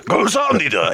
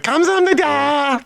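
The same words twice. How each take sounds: First: It is said in a gruff, growling voice. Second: It is said in a soft, delicate voice. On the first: This is how the men there said it. "There's a grovel" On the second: This is how a woman would say it. "meanwhile, I'm going"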